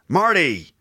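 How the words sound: It has an American r and flapped t. "So American"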